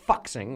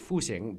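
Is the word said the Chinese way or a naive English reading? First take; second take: English reading; Chinese. First: It is said as a naive English reading. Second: It is said with the Chinese pronunciation. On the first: The speaker calls it wrong. "if you don't read pinyin, you might pronounce it as Fuxing" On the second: The speaker calls it right. "if the Chinese is Fuxing"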